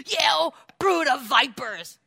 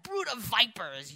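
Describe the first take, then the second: First: Slow, loud, higher fire-breathing prophet; fiery prophet. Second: Said in the usual way. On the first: Retold or imitated. John the Baptist denouncing the Pharisees, slow fiery roar. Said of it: "and he goes". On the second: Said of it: "He said".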